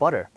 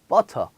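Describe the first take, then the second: First: The word has an American English pronunciation. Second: The word has a Korean-style English pronunciation. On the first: The speaker calls it right. "미국에서는 그렇게 발음하지 않습니다" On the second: The speaker calls it wrong. "butter 이렇게 얘기를 하겠죠"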